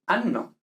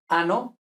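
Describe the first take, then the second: First: Anno with a long held n, an-no; double n. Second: Ano with one short n; single n. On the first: Teacher contrasts Italian words, anno with long n. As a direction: hold the nn of anno. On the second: Teacher contrasts Italian words, ano with short n. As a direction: keep the n in ano brief. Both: Shown as a demonstration. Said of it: "Son cosas distintas".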